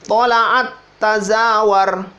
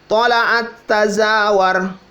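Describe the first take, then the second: Both takes have the same delivery.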